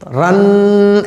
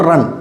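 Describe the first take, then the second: First: The final n is held in the nose. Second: The final n is pronounced clearly without nasal hold. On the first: The speaker calls it wrong. "नाक में रोके नहीं पढ़ोगे। ... रन ऐसे नहीं पढ़ोगे, ये गलत हो जाएगा" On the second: The speaker calls it right. "बल्कि नून को जाहिर करके पढ़ना है"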